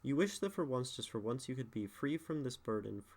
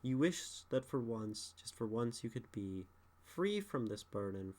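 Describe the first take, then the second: First: The line is said straight through without a pause. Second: The line is said with a deliberate pause in it. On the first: "if I don't pause there" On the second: "you have to intentionally add a pause"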